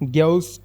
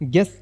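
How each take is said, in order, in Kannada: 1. g ಮತ್ತು e ನಡುವೆ u ಸ್ವರ ಕೇಳಿಸುತ್ತದೆ. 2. g ಮತ್ತು e ನಡುವೆ ಯಾವುದೇ ಸ್ವರ ಕೇಳಿಸುವುದಿಲ್ಲ. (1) "ಬದಲು" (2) "ಇದರಲ್ಲಿ ಯು ಸೈಲೆಂಟ್ ಆಗುತ್ತೆ"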